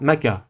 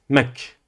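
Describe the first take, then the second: First: The k is followed by an a vowel. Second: The k is followed by no vowel. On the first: The speaker calls it wrong. "vous ne dites pas maka" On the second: The speaker calls it right. "Vous dites mak. Pas de voyelle"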